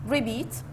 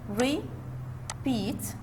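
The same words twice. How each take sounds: First: Said in the usual way. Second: "repeat" broken in two, re... peat, with a gap; split into syllables. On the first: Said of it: "It's a two-syllable". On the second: Shown as a demonstration. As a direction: say "repeat" softly, one syllable at a time. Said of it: "This one syllable and this is the other syllable".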